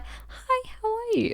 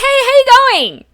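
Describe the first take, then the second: First: The greeting is said quietly. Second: The greeting is said loudly.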